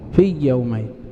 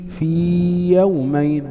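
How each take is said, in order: First: The long vowel merges into the following y. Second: The long vowel is held fully before the y. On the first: The speaker calls it wrong. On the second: The speaker calls it right.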